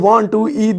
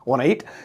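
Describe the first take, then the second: First: Each word is said fully and slowly. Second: "Want to" is reduced to one quick word. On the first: The speaker calls it wrong. "दो घंटे लग रहे हैं बोलने में" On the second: The speaker calls it right. "वाना"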